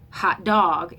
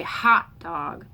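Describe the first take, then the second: First: "hot dog" with DOG punched, louder; lopsided stress. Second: "hot dog" with HOT punched, dog weak; lopsided stress. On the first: Teacher shows another wrong way, second-word stress on "hot dog". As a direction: throw the weight onto "dog" in "hot dog". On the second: Teacher shows the wrong way, first-word stress on "hot dog". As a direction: hit "hot" and throw away "dog" in "hot dog". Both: Shown as a demonstration. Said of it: "We don't say hot dog".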